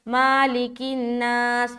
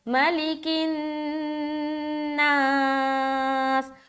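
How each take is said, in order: First: The first vowel is drawn out long. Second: The first vowel is kept short. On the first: The speaker calls it wrong. "यहाँ पर अक्सर लोग गलती करते हैं, माँ को लंबा कर देते हैं" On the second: The speaker calls it right. "लंबा नहीं करना, बिल्कुल भी ना खींचे"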